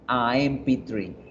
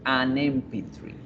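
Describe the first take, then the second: First: The article is a bare vowel before 'M'. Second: An n sound links the article to 'M'. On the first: The speaker calls it wrong. "yo no digo" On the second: The speaker calls it right. "yo digo"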